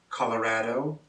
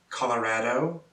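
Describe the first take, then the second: Both takes have the same delivery.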